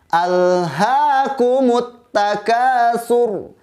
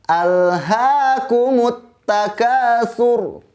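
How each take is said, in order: No difference in how they are said.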